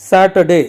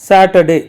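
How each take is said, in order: Both takes have the same delivery.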